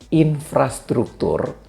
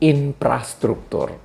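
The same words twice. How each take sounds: First: It is said with a standard f sound. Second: It is said with a p sound instead. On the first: This is the intended word. "kalau orang Sunda akan menyebut infrastruktur" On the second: This is how a Sundanese speaker says it. "dia akan menyebut infrastruktur"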